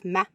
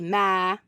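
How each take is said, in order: First: The vowel is short. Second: The vowel is drawn out long.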